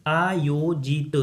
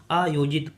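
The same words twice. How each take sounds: First: आयोजित said very slowly, syllable by syllable with a long opening aa; drawn-out syllables. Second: Said in the usual way. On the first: Shown as a demonstration. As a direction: stretch आयोजित out as aa-yo-jee-t. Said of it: "आ की जो मात्रा होगी". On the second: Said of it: "आयोजित मतलब आ की जो मात्रा होगी".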